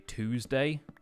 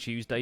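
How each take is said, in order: First: It is said without a y glide, like 'toosday'. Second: It is said with a y glide, like 'chewsday'.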